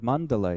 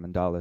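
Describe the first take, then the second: First: The word is said with its original Sanskrit pronunciation. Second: The word is said with its common English pronunciation. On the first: The speaker calls it right. "the word mandala itself" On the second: The speaker calls it wrong. "as it's commonly pronounced, mispronounced in English"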